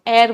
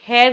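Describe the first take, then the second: First: The word starts with a vowel, no h. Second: The word starts with an audible h sound. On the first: The speaker calls it right. "इसको एयर बोलते हैं, एच इसमें silent होता है" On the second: The speaker calls it wrong. "इसको हेयर नहीं"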